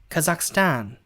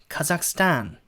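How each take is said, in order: Both takes have the same delivery.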